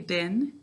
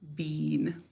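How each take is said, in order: First: The vowel is short, like in 'bin'. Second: The vowel is long, like in 'bean'. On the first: This is the ordinary everyday pronunciation. "How do we say bin to spell it?" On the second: This pronunciation helps to remember the spelling. "We say bean"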